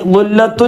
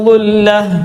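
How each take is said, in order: First: The word ends in a full -tun syllable. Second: The word ends in a bare h sound. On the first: The reading runs on without a stop. The speaker calls it wrong. "എന്ന് പറയാൻ പറ്റൂല" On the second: The reciter stops at this word. The speaker calls it right. "അപ്പോൾ അവിടെ ഞാൻ നിർത്തി"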